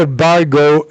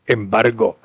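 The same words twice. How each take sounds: First: "embargo" with American r and gliding final o; English pronunciation. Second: Said in the usual way. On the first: Retold or imitated. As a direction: say "embargo" as English-language papers would. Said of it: "Cuando te hablan de embargo". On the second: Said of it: "Viene del español".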